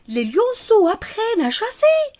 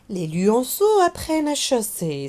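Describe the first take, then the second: First: The pitch rises at the end like a question. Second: It is said with exclamatory force, not a rise. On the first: It asks something. "je vais monter par le son de ma voix, l'intonation de ma voix à la fin" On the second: It expresses a feeling. "C'est une phrase qui se termine par un point d'exclamation"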